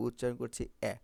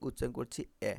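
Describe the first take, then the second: No difference in how they are said.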